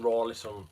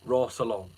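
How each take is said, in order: First: The name is said as Rawlison. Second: The name is said as Rossalon. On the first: The speaker calls it wrong. "What I was saying" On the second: The speaker calls it right. "I've got it"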